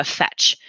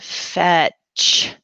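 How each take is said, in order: First: Said in the usual way. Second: Fetch drawn out slowly, each sound stretched; slow check. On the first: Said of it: "I'm just gonna choose one". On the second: Shown as a demonstration. Teacher modelling slow checking for a student, drawn out. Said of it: "Slow check that word".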